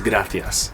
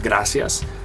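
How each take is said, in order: First: It is said in a Spain Spanish accent. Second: It is said in a Central American Spanish accent. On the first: "it's gracias" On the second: "Instead of gracias"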